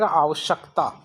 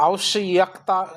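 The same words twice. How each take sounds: First: आवश्यकता said as aavashak-taa, with full k; correct pronunciation. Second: आवश्यकता drawn out with an audible y, aavash-yak-taa; wrong pronunciation. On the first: Teacher gives the replacement word, correct pronunciation. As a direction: say आवश्यकता without dwelling on the y. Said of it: "इसकी वजह क्या है". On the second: Teacher shows a faulty word, wrong pronunciation. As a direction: sound the extra y in आवश्यकता. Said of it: "ऐसा शब्द गलत है". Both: Shown as a demonstration.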